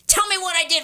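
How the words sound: It is said in a sharp, argumentative tone. The speaker is attacking and putting the other on the defensive. The speaker calls it wrong. "you don't say it like"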